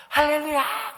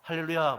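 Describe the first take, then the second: First: 할렐루야 shouted much higher and louder; 할렐루야 as a wild ecstatic cry; overjoyed shout. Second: Said in the usual way. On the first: Retold or imitated. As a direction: scream 할렐루야 with delight like the old pastor. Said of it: "이분이 전화기로". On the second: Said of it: "할렐루야, 목사님".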